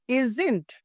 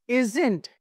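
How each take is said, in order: No difference in how they are said.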